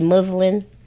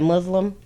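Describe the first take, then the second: First: The word ends with an N sound. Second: The word ends with an M sound. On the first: The speaker calls it right. "Should be muslin" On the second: The speaker calls it wrong.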